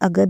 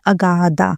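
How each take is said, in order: First: The name ends with a consonant sound. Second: The name ends with a vowel sound. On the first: It follows the Sanskrit pronunciation. The speaker calls it right. "इसका pronunciation अगध है" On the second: It follows how the name is spelled. The speaker calls it wrong. "इसके spelling के हिसाब से ये बनता है अगाधा"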